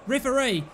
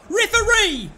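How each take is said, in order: First: Said in the usual way. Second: Higher and louder shout of Referee!; loud appeal. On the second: Real, not acted. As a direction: bellow Referee! at the official. Calling referee twice.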